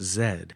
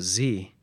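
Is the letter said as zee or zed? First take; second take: zed; zee. First: The letter is said as zed, British style. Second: The letter is said as zee, American style.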